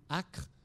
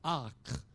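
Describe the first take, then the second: First: The first vowel is kept short. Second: The first vowel is held long. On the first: It is a unit measuring land area. "c'était deux mots différents" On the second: It is the adjective for a harsh smell. "l'accent circonflexe au XVIIIe siècle indiquait que la voyelle était longue"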